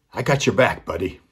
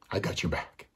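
First: Raised, firm reassurance; a player calling a promise to the boy. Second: Much softer, sincere repeat of the promise; a player quietly repeating his promise to the boy. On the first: Player reassures boy, first take. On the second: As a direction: drop the volume and mean it. Player reassures boy, repeated softly. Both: Retold or imitated.

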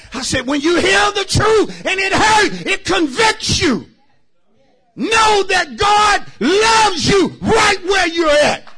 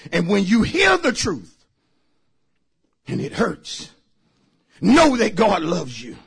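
First: High, loud and slowed repeat; shouted preaching repeat. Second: Said in the usual way. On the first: Real, not acted. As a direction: hammer it home to the church. Shouted second take.

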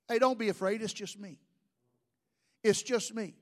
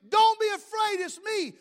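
First: Soft, low, casual reassurance; calm them quietly, voice dropped low; easy, hushed comfort in God's role; gentle reassurance. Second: High-pitched call across the water; raised-pitch yell in Jesus's role, not full volume; acted yell. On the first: Acted. Voices God reassuring the frightened men. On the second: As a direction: call out high, as if over a storm. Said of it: "Jesus yells at them".

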